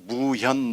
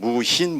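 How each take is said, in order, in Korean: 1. 둘째 음절에는 이중모음 'hyun'이 있습니다. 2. 둘째 음절에는 평범한 'hin' 모음이 있습니다.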